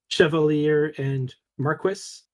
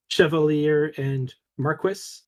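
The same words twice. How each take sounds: First: The words are pronounced the English way. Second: The words are pronounced the English way.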